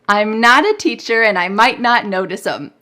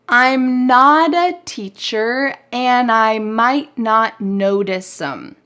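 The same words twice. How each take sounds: First: The sentence is said a bit faster. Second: The sentence is said relatively slowly.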